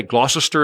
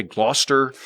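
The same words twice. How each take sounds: First: Gloucester in three syllables, "GLOSS-ess-ter"; American pronunciation. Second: Gloucester in two syllables, "GLOSS-ter"; English pronunciation. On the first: American showing his country's reading, Gloucester as "GLOSS-ess-ter". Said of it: "we would say Gloucester". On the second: American showing the English town name, Gloucester as "GLOSS-ter". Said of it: "and you say Gloucester". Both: Shown as a demonstration.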